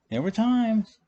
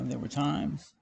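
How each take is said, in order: First: TIMES pitched high and loud, then falling; emphatic repeat. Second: Said in the usual way. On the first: Real, not acted. Punches the repeat for comic effect.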